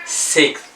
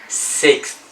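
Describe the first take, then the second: The two takes are said the same way.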